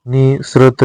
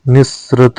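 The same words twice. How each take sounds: First: निसृत with one short s; short, single s in निसृत; single-s pronunciation. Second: निसृत with a long double s; doubled s. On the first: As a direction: say निसृत without doubling the s. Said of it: "निसृत नहीं होता". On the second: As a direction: hold the s in निसृत. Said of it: "निसृत होता है". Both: Shown as a demonstration.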